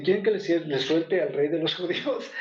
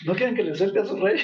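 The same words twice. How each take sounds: First: Said in the usual way. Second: Quick, needling jab of a question; quicker, teasing repeat of the governor's question; mocking, needling. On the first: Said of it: "Y dicen". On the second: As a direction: rub it in like salt in a wound. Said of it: "como poniendo el dedo en la llaga".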